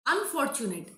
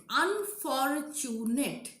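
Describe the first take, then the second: First: Said in the usual way. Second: Unfortunate very slowly, un-for-tu-nate; syllable by syllable. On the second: Shown as a demonstration. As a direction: give "Unfortunate" four separate long beats. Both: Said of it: "They are all tetrasyllable".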